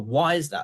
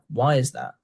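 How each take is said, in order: First: The question is asked in a sharp, aggressive tone. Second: The question is asked in a soft, curious tone. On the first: The listener feels interrogated. The speaker calls it wrong. "if you're aggressive with it" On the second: The asker just wants to learn more. The speaker calls it right. "I'm just just curious to learn"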